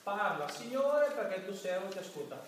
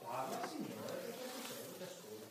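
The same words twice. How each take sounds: First: Preacher declaiming the opening words of prayer; declaimed prayer. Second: "Parla, Signore, perché il tuo servo ti ascolta" whispered softly; preacher showing a whispered, listening prayer; hushed prayer. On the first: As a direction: proclaim "Parla, Signore" as an opening. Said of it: "questo è il primo atto della preghiera". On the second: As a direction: breathe the words as a private prayer. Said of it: "E dopo?". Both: Shown as a demonstration.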